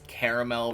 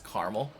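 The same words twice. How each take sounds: First: The word is said with three syllables. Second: The word is said with two syllables. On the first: "instead of three" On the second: "the second one because it's effectively two two syllables"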